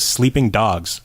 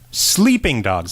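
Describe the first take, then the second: First: The stress falls on the second word. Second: The stress falls on the first word.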